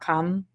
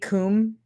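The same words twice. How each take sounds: First: The word is given an English pronunciation. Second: The word is given a Latin pronunciation. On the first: The speaker calls it wrong. "not cum" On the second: The speaker calls it right. "when you're pronouncing it like Latin, though, wouldn't it be cum"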